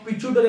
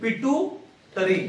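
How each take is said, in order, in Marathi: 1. मधला व्यंजन 'ch' आवाज आहे. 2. मधला व्यंजन स्पष्ट 't' आवाज आहे. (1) "पिट्युटरी किंवा पिच्युटरी म्हणतात शाळेमध्ये" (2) "पिट्युटरी किंवा पिच्युटरी म्हणतात शाळेमध्ये"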